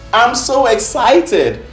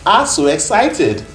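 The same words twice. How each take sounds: First: The words are pronounced clearly and distinctly. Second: The words are pronounced unclearly, like a toddler. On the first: The speaker calls it right. "what she was trying to say is" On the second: The speaker calls it wrong. "guess how she pronounces it?"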